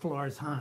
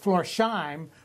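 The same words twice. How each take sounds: First: The s and h are split between syllables. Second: The s and h blend into one 'sh' sound. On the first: The speaker calls it right. "really is Florsheim" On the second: The speaker calls it wrong. "that we know of as Florsheim"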